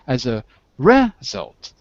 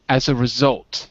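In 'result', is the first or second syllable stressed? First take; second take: first; second. First: The stress is on the first syllable. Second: The stress is on the second syllable. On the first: The speaker calls it wrong. "you said it in the first syllable" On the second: The speaker calls it right. "Second syllable"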